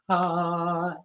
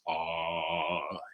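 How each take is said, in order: First: It is said at a medium pitch. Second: It is said at a low pitch. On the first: "and our medium voice" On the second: "we're going to find our low voice"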